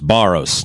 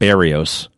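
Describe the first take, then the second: First: The name is said with two syllables. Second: The name is said with three syllables. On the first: The speaker calls it right. "The name's Barros" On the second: The speaker calls it wrong. "not Barrios"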